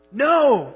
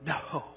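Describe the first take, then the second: First: A much higher, louder, forceful no; emphatic no. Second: Said in the usual way. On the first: Shown as a demonstration. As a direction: slam the word No down hard. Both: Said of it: "the most emphatic way to say no".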